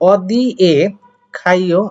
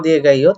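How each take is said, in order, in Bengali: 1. ধীরে, একটু থেমে, 'k' ধ্বনি দিয়ে। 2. একসাথে মিলিয়ে, 'g' ধ্বনি দিয়ে। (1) "এভাবে বলবেন যখন দুই টা একটু আস্তে করে উচ্চারণ করবেন" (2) "যখন একসাথে পড়বেন"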